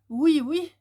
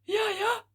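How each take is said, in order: First: It is spoken on an outgoing breath. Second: It is spoken on an incoming breath. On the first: "j'inspire et j'expire, ... l'air, il sort de ma bouche" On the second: "ils inspirent, ils font"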